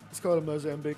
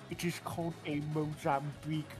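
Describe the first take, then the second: First: It is said in the speaker's normal voice. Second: It is said in a put-on character voice.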